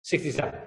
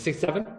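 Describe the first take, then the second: First: Sixty-seven. with a firm falling end; Sixty-seven. said as a decided statement; settled answer. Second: Rising, asking herself which year; Sixty-seven? asked with a questioning rise; unsure question. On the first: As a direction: confirm the year to yourself. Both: Real, not acted. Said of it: "Which one is it?".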